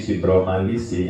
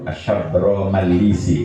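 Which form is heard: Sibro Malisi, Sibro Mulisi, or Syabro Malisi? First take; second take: Sibro Malisi; Syabro Malisi. First: It begins with 'sib' and has 'ma'. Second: It begins with 'shab' and has 'ma'. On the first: The speaker calls it wrong. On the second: The speaker calls it right.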